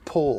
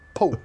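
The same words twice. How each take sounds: First: The name ends with a clear L sound. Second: The name ends with a W-like sound. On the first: The speaker calls it right. "it's got an L at the end" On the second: The speaker calls it wrong. "You put a W at the end"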